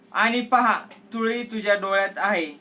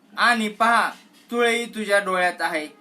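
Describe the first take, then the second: The two takes are said the same way.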